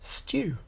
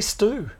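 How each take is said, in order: First: It is said with a British accent. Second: It is said with an American accent.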